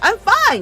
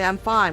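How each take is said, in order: First: It is said louder, with brighter voice. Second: It is said quietly, with subdued voice.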